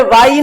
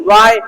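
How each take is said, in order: First: वाई ending in a separate long ee; wrong Y name. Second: वाई as one gliding syllable, "wai"; correct Y name. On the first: Teacher showing the mistake in Y, "vaa-ee". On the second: Teacher correcting the letter name Y, one-syllable "wai". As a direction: glide वाई into a single syllable. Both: Shown as a demonstration. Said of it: "अरे वाई नहीं".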